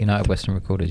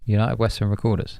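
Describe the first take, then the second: First: It is said quickly. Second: It is said at a normal speed.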